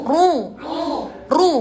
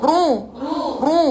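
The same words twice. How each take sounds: The two takes are said the same way.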